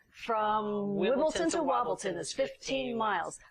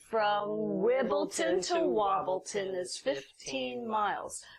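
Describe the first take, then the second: First: It is said fast. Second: It is said at a normal pace.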